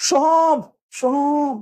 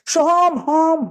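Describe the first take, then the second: First: "Soham, Soham" high, held, whole word echoed; full echo demo. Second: "Soham, হম" high, held, only the tail echoed; partial echo demo. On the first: Teacher demonstrates a full echo, "Soham, Soham" called high and long. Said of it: "যদি এইভাবে শুনতে চাও". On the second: Teacher demonstrates a clipped-off echo, "Soham, হম" called high. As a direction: call out "Soham", then echo just "হম". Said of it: "তাহলে এরকম শোনা যাবে". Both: Shown as a demonstration.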